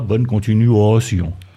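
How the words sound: It is said with a regional Ardennes accent.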